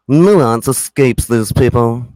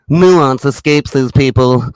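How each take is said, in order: First: Slow smug imitation; mild slow mimicry of a smug man; smug mock voice. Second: Slow, drawn-out smug imitation; slow sneering impression of a smug man; smug mock voice. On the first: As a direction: drag out Nuance like a smug know-it-all. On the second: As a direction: mimic a smug pundit savouring each word. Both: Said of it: "Listen to this smug fuck".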